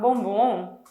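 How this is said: It sounds like refusing a chocolate.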